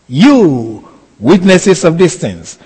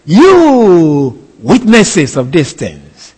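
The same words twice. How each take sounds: First: Said in the usual way. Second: "You" leaned on, rest slow and deliberate; slow literal Greek rendering with "You" stressed. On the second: Shown as a demonstration. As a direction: hit "You" and draw out the line slowly. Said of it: "he placed emphasis on the word "you".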